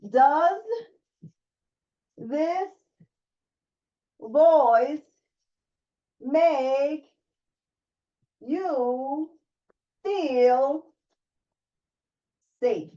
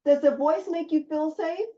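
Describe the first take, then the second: First: Does this voice make you feel safe asked one word at a time with pauses; a slow, separated coaching question. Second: Said in the usual way. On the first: Shown as a demonstration. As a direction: pause after each word, rising on each.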